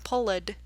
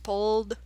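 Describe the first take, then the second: First: The ending is said as an extra syllable. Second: The ending is a plain d sound. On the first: The speaker calls it wrong. "not pulled" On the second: The speaker calls it right. "just pulled"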